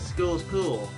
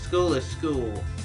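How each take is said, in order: First: It is said fast, the words run together. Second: It is said slowly, each word kept separate.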